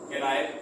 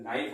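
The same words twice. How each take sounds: First: केनाइफ with the K sounded as an extra syllable; mispronounced केनाइफ, silent K spoken aloud; wrong pronunciation. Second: नाइफ with a silent K; नाइफ, no "ke" before the N; right pronunciation. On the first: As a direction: say केनाइफ, voicing a "ke" before the N. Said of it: "गलत pronunciation होता है". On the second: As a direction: say नाइफ, starting straight on the N. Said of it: "इसका right pronunciation". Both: Shown as a demonstration.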